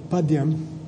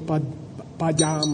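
First: It is said in a standard Sanskrit pronunciation. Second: It is said in a Tibetan-style pronunciation. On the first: The speaker calls it right. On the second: The speaker calls it wrong.

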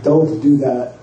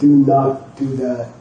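First: The first two words are contracted into one. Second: The first two words are said separately in full. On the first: "it got shortened" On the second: "Instead of"

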